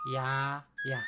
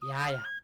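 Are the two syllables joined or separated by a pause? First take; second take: separated; joined. First: The two syllables are said apart with a pause. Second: The two syllables are run together without pause. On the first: "You say literally Ya Ya" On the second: "All together"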